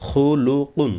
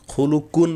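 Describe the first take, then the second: First: Higher, deliberate খুলুকুন with Arabic qaf, "qun"; qaf from the throat. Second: খুলুকুন with an ordinary front "k" in কুন; higher-pitched খুলুকুন, ending "kun" rather than "qun"; qaf softened to kaf. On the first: Teacher models the word for learners, throaty qaf in খুলুকুন. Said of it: "কফ কিন্তু গলায় যেতে হবে". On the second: Teacher shows the learners' error, plain kaf in খুলুকুন. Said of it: "বললে কাফ হয়ে যাবে". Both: Shown as a demonstration.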